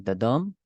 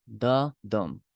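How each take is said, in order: First: "the dum" with the beat on "dum"; light "the", then a strong "dum"; stress on DUM. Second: "the dum" with the beat on "the"; slow trochee, strong "the", falling "dum"; stress on THE. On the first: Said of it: "this form is called trochee". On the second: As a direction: hit "the" first, then let "dum" fall. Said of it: "the first syllable is stressed". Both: Shown as a demonstration.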